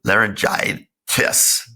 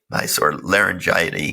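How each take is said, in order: First: Laryngitis said slowly as "lair-en-jai-tis", rising at the end; slow, careful laryngitis with an unsure rising tune; careful correction. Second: Laryngitis garbled as "lair-en-jai-uh-nee", ending fumbled; mispronounced word. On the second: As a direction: stumble over laryngitis, mangling its ending. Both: Real, not acted. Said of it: "whatever that word is".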